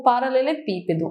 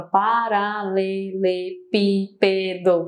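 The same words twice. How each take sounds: First: Said in the usual way. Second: "paralelepípedo" drawn out beat by beat; split into syllables. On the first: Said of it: "Olha quantos impulsos eu tenho". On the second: Shown as a demonstration. Teacher shows students the impulses, "paralelepípedo" syllable by syllable. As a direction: pronounce each syllable of "paralelepípedo" separately and evenly. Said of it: "Olha quantos impulsos eu tenho na palavra".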